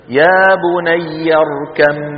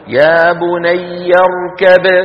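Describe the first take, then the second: First: The b turns into a doubled m sound. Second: It ends on a bouncing, released b sound. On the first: "نقلب الباء إلى إيه؟ إلى ميم" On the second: "بباء ساكنة مقلقلة"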